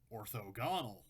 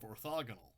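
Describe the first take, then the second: First: It begins with 'ortho' as in orthonormal. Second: It is said in the usual standard way. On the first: "after I learned the word orthonormal, I started calling this orthogonal" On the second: "instead of orthogonal"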